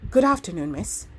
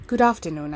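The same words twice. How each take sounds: First: Put-on a light country accent, soft and breathless. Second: Said in the usual way. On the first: A narrator's reading. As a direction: greet her in a soft country lilt, short of breath. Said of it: "with its country accent, was soft and breathless". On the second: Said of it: "I began".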